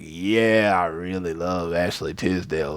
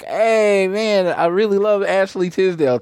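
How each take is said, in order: First: It is said in a deep, older voice. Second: It is said in a high, childish voice.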